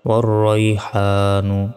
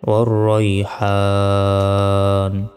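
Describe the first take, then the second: First: The word ends with a short final vowel. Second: The word ends on a bare consonant. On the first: The reading continues without stopping. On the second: The reader stops at this word.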